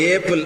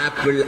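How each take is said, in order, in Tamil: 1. இந்த வார்த்தை 'ay' உயிர் ஒலியில் ஆரம்பிக்குது. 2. இந்த வார்த்தை 'aa' உயிர் ஒலியில் ஆரம்பிக்குது. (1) "சில ஊர்ல போறச்சு ஏப்பிள், அது என்னன்னா ஏன்னு தானே படிச்சு கொடுத்துருக்கீங்க" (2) "ஆப்பிள் ஆன்னு சொல்றான்"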